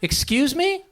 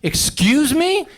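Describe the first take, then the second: First: It sounds like a puzzled, genuine question. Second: It sounds offended and indignant. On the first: The words were not heard. "You didn't hear what they said" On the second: The words were heard and gave offense. "You heard what"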